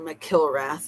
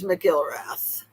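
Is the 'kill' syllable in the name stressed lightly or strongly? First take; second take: strongly; lightly. First: The 'kill' syllable is stressed strongly. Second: The 'kill' syllable is stressed lightly.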